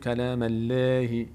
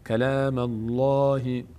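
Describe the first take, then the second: First: The L in Allah sounds thin and light. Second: The L in Allah sounds full and heavy. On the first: The speaker calls it wrong. "نمیگیم کلام الله، این اشتباهه" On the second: The speaker calls it right. "لفظ جلال اینجا پر خوانده میشه"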